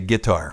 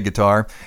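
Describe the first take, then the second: First: It is said the Southern US way. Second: It is said the Northern US way.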